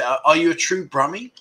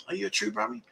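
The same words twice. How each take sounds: First: Said in the usual way. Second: A light Brummie accent, softer, rising on Brummie; mock Brummie accent. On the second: Shown as a demonstration. Host teases a Birmingham viewer in a mock Brummie accent. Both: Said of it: "What an accent they've got".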